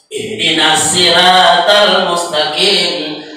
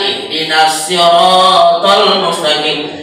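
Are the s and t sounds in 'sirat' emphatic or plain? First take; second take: plain; emphatic. First: The s and t sounds are light and plain. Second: The s and t sounds are heavy and emphatic. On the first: It means something rude instead of the path. The speaker calls it wrong. "Huruf sad kita ganti sin, huruf to kita ganti ta" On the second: It means the straight path. The speaker calls it right.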